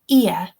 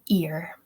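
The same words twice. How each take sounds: First: RP accent, with no R sound at the end. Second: Speaker's own accent, with an R sound at the end.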